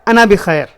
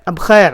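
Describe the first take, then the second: First: The phrase is said in full with every syllable. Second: The phrase is shortened into two quick syllables. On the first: This is the complete form of the expression. "वरना ये पूरा लफ्ज़ होता है" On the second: This is the everyday Saudi way of saying it. "ये सऊदी लहजे में है। उस वो लोग लफ्ज़ों को शॉर्टकट में इस्तेमाल करते हैं"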